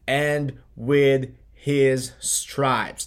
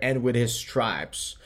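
First: AND WITH HIS STRIPES very slow, each word set apart; slow, deliberate stress on every word of "And with his stripes"; emphatic scripture quote. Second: Said in the usual way. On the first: Real, not acted. Quoting the verse for emphasis.

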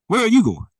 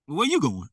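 First: Where ARE you going, much louder and pointed; a preacher loudly confronting a wanderer; loud challenge. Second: Said in the usual way. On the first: Shown as a demonstration. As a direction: call them out loud, demanding an answer.

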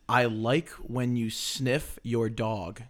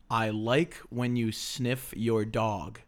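First: "I like when you sniff your dog" mouthed slowly, every word shaped; over enunciating. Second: "I like when you sniff your dog" said slowly again, lips exaggerated; over enunciating. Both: Shown as a demonstration. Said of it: "whisper challenge words".

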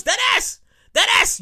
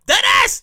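First: High-pitched New York exclamation; excited New York slang voice; New York accent. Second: Loud New York shout; punchy New York slang voice; New York accent. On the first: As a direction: call it out like a New Yorker, pitched up. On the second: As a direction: bark it like a loud New Yorker. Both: Acted. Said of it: "In my New York voice".

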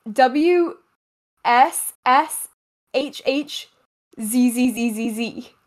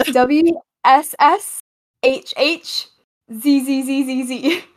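First: Spelling out a sound, letter by letter. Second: Spelling it out. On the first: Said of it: "spell that sound for me". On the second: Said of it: "spell that one more time". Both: Shown as a demonstration.

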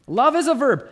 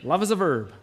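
First: Louder and higher, hammered home; emphatic. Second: Said in the usual way. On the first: Shown as a demonstration. Preacher proclaims Love is a verb to the congregation, loud and emphatic. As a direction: proclaim it like a slogan. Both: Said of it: "D C Talk taught us".

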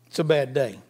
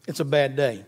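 Both takes have the same delivery.

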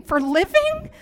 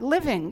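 First: Higher and louder, disbelieving question; incredulous echo. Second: Said in the usual way. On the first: Retold or imitated. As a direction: throw the word back in disbelief.

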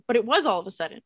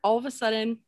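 First: "was" punched louder; stress on WAS. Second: Said in the usual way. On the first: Real, not acted. Storyteller defending her repeated phrase to listener, stress on "was". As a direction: hit the word "was" hard, insisting. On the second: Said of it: "I keep saying all of a sudden".

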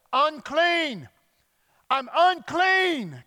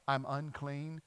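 First: High, loud, drawn-out cry; yelled warning. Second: Said in the usual way. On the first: Retold or imitated. Leper warns people walking up to him, yelled. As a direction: yell it slowly across a distance. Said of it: "required by law to yell". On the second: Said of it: "you had to yell".

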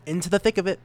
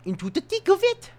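First: Said in the usual way. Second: High pitched sung-up phrase; pitched-up squeaky catchphrase; squeaky repeat. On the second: Shown as a demonstration. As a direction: chirp it up high.

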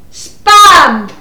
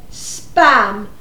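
First: SPAM shouted loud; one loud, emphatic word; exasperated shout. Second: Said in the usual way. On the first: Acted. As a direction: shout Spam at someone hard of hearing. Second attempt after being misheard.

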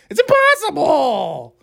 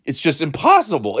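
First: High, stretched-out mocking squeal; squeaky Tucker Carlson. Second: Said in the usual way. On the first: Podcaster slipping into a TV host parody, squeaky. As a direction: push it way up into a squeaky whine. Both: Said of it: "sound like Tucker Carlson".

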